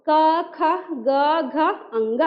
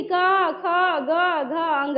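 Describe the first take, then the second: First: ख and घ carry a clear h-breath while क and ग stay clean; teacher modelling the right way to say क, ख, ग, घ; correct aspiration. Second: क, ख, ग, घ said all alike, ख and घ with no h-breath; teacher showing the mistake of not aspirating ख and घ; wrong way. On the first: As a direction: read क, ख, ग, घ, अंग properly, with breathy ख and घ. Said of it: "ऐसे पढ़ा जाता है". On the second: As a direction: say क, ख, ग, घ, अंग flatly, without aspirating ख and घ. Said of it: "ऐसे नहीं". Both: Shown as a demonstration.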